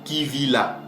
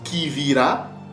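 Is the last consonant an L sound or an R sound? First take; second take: L; R. First: The last consonant is an L sound. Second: The last consonant is an R sound. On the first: "soit avec le lamed" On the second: "soit avec le resh"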